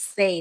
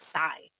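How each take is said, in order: First: The name rhymes with 'day'. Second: The name rhymes with 'eye'. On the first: The speaker calls it right. "It's Say" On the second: The speaker calls it wrong. "not Sai"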